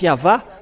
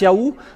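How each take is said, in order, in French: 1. Le milieu du nom a un son v. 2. Le milieu du nom a un son oo. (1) "ceux qui prononcent Yava sont ôtés du péché" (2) "ceux qui prononcent Yahou ne sont jamais délivrés du péché"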